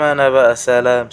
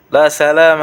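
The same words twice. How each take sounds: First: Said in the usual way. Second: Mock farewell.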